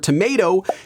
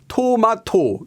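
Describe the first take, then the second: First: The syllables blend into one smooth word. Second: Each syllable is said separately. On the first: The speaker calls it right. "as one smooth word" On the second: The speaker calls it wrong. "kind of like individual syllables"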